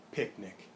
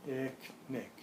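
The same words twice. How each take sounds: First: "Picnic" joined into one word, lower; blended "Picnic" with no gap; fully blended. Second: "Picnic" in two separate chunks, pic, nic; partly blended. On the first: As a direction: say "Picnic" quicker, syllables run together. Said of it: "That is blending". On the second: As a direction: split "Picnic" between its two syllables. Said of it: "little bit faster". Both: Shown as a demonstration.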